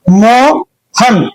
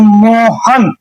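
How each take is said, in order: First: Mohan slowly broken as मो, pause, हन; two-piece word. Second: Said in the usual way. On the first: Shown as a demonstration. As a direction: hold मो, stop, then let हन fall. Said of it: "जिस शब्द के दो टुकड़ा हो जाए". (मोहन दो टुकड़ों में, मो... हन) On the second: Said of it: "जैसे मैं बोलता हूं".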